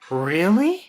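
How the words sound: The pitch rises high at the end. The speaker is excited about it. "we'll go higher at the end of the question"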